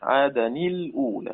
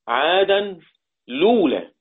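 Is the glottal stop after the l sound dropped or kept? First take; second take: kept; dropped. First: The l is unvoweled and the glottal stop is kept. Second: The glottal stop is dropped and the l takes u. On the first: "أقرأ اللام القمرية ساكنة" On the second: "حذف الهمزة ثم نقل ضمتها إلى اللام فتصير اللام مضمومة"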